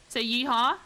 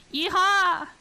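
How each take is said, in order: First: Said in the usual way. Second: High, loud Southern cowboy whoop; a big Southern yeehaw, pitched way up. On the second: Shown as a demonstration. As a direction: holler it like a Southern cowboy on request.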